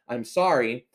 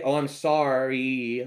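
First: It is said in a plain normal voice. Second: It is said in a silly put-on voice.

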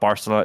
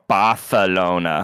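First: The c is said with an s sound. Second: The c is said with a th sound. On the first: This is the ordinary way people say it. "You call it" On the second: The speaker pretends to know the proper local way. "It's actually called"

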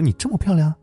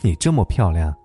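First: It ends with a rising, questioning tune. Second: It ends with a falling, earnest statement tune.

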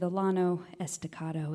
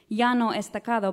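First: It is said with Texan pronunciation. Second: It is said with Spanish pronunciation.

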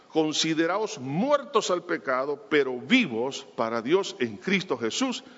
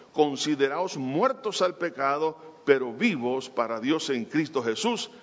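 No difference in how they are said.

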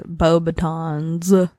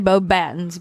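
First: It is said with an exaggerated French accent. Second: It is said with a plain English accent. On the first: This is closer to the real name. "I'm pretty sure it's Beauxbatons, but not with that accent" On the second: This is how the speaker usually says it. "I say Beauxbatons"

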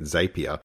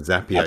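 First: The word does not rhyme with happier. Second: The word rhymes with happier. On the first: The speaker calls it wrong. "I think I was calling it Zapier" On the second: The speaker calls it right. "it sounds like happier. So Zapier the correct pronunciation"

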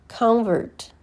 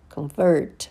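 First: The stress is on the first syllable. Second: The stress is on the second syllable. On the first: It is a noun. "First, you hear the noun" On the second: It is a verb. "and then the verb"

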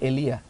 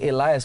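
First: The final S sound is silent. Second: The final S sound is pronounced. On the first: The speaker calls it right. "it's actually Elia. That's how you should read it, because the S is silent" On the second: The speaker calls it wrong. "we say Elias"

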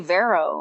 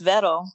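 First: The name is said in an Americanized way. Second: The name is said in a non-American way. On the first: The speaker calls it wrong. "You say Vero" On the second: The speaker calls it right. "It's Veto"

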